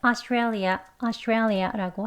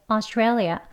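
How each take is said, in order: First: Australia said slowly with 아 start; Australia slowed with an open 아 first vowel; 아 version repeated. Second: Australia said slowly with 어 start; Australia slowed with an 어 first vowel; 어 version repeated. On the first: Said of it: "그렇게도 발음을 한다". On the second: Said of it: "어 소리가 좀 더 나죠". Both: Shown as a demonstration.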